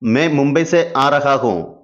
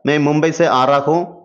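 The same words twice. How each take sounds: First: It is said slowly with every word clear. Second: It is said fast with words blurred together.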